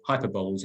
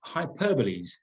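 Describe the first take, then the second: First: Hyperboles as HY-per-bowls; hyperboles stressed on HY, rhyming its end with "bowls"; mistaken pronunciation. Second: Hyperboles as hy-PER-buh-lees; hyperboles ending in "lees", stress on the second syllable; correct pronunciation. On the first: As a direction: say hyperboles in three syllables, ending like "bowls". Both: Shown as a demonstration. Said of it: "as it's pronounced".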